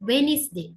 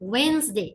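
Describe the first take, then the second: First: It is said with three syllables, wen-is-day. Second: It is said with two syllables, wens-day. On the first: The speaker calls it wrong. "This is not வெனிஸ் டே" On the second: The speaker calls it right. "வென்ஸ்டே is the correct pronunciation"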